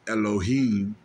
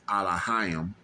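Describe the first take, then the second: First: The word ends with a short 'heem' sound. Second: The word ends with a drawn-out 'hayim' sound. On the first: The speaker calls it wrong. "Elohim is wrong" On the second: The speaker calls it right. "It's Allahayim"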